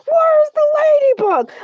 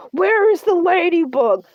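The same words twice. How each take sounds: First: High, loud demand for the Ladybug; outraged shout. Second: Said in the usual way. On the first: Acted. Shark host demands the missing Ladybug, outraged shout. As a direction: yell it out, much higher and louder.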